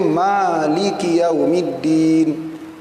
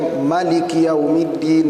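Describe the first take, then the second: First: The first vowel of Maliki is long. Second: The first vowel of Maliki is short. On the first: This is the Hafs recitation tradition. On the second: This is another recitation tradition.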